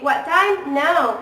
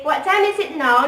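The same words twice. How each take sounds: First: "What time now" slow, with small words dropped; Singaporean shortened question. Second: Said in the usual way. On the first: Shown as a demonstration. Student showing a Singaporean question, "What time now" cut down. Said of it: "they will say". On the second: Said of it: "when we say".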